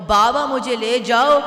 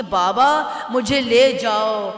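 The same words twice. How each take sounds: First: Louder crying plea rising on جاؤ. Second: Weeping plea. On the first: Orator voicing the girl begging her dead father, louder crying plea. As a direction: wail it out, pulling up on جاؤ. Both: A narrator's reading. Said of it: "رو رو کر فرماتی تھیں".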